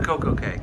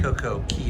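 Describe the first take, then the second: First: The last word is pronounced like 'kay'. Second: The last word is pronounced like 'key'. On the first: The speaker calls it right. "We'll call it K" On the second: The speaker calls it wrong. "doesn't sound quite right"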